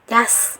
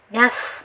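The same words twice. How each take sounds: First: The consonant is thin, tongue back flat. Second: The same.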